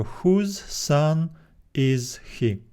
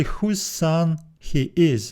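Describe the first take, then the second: First: Slow, with question order; slow question form. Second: Slow literal reading. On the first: Teacher contrasting literal and question word order slowly. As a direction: model the question slowly for students. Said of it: "we need to make it a question". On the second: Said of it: "So literally". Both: Shown as a demonstration.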